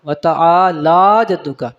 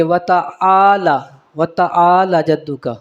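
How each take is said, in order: First: "وتا آلہ جدو کا" slower, لا held long; correct long lā. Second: "وتا آلہ جدو کا" with the lā cut short; wrong short ending. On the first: Teacher corrects the reading, long lā in "وتا آلہ جدو کا". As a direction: stretch the end of "آلہ" before "جدو کا". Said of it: "اینڈ پہ جو لا آتا ہے". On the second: Teacher shows readers' mistake, short lā in "وتا آلہ جدو کا". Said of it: "غلطی کر جاتے ہیں". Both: Shown as a demonstration.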